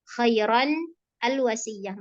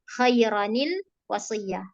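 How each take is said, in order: First: The words are kept separate, starting the second with 'al'. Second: The words are joined by an 'nil' linking sound.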